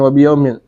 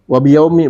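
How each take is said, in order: First: The word ends in i followed by n. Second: The word ends in a short i vowel. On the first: The speaker calls it wrong. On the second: The speaker calls it right. "Wa afsah"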